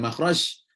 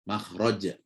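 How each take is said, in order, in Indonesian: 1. Konsonan akhirnya berbunyi 'sh'. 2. Konsonan akhirnya berbunyi 'j'. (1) "Bukan makhraj ... Bukan huruf shin" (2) "tapi makh, makhraj ... tapi huruf jim"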